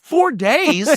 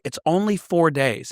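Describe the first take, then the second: First: High-pitched incredulous echo; mock disbelief. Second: Said in the usual way. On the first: Teen retelling shock at being sent away, incredulous. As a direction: throw it back as a stunned question. Retold shocked reply to parents.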